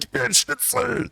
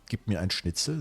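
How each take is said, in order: First: It is screamed loudly and forcefully. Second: It is said at a normal, calm volume. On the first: "they're always screaming" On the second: "They're not like saying"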